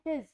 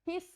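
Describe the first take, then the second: First: The word ends with a buzzing z sound. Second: The word ends with a hissing s sound. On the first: The speaker calls it right. "ज की sound देते हैं" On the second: The speaker calls it wrong. "हिस नहीं बोलते उसको"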